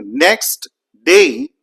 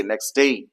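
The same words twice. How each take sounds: First: Slow "next day" with the T sounded; without elision. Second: "next day" run together, T dropped; with elision. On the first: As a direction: separate "next" and "day", releasing the T. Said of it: "Instead of saying next day". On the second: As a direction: drop the T, saying "nex-day". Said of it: "we simply say next day". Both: Shown as a demonstration.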